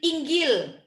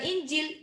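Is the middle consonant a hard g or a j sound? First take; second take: hard g; j. First: The middle consonant is a hard g sound. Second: The middle consonant is a j sound. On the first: This is how Egyptians say it. "Makanya orang Mesir itu bilang" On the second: This is how Saudi Arabians say it. "itu bukan Injil"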